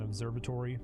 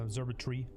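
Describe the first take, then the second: First: Every syllable of the word is pronounced. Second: One syllable is skipped, in an English accent. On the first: "instead of" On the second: "people with English accents, like... skip, like, the syllable"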